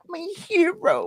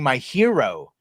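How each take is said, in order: First: Much higher doting squeal; swooning high voice. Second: Said in the usual way. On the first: Pretend. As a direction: gush it like a lovestruck fan.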